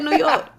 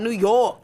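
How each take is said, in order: First: The O and R are said short. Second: The O and R are held long.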